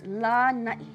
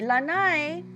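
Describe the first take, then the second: First: It ends with a glottal stop catch. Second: It ends in a plain vowel with no catch. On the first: It names the island. The speaker calls it right. "long A at the beginning and an okina at the end" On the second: It names a porch or deck. The speaker calls it wrong. "Make sure you don't say Lanai. It's not the outside of your house"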